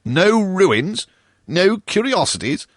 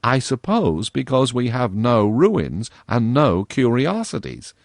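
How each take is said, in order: First: High, loud incredulous repeat of no ruins, no curiosities; mock-outraged ghost echoing her; indignant echo. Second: Dry, slow mocking girl voice; a touch of girlish sarcasm; satirical. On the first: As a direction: fling her words back in disbelief. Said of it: "answered the ghost". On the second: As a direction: tease him with mock pity. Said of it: "said Virginia satirically".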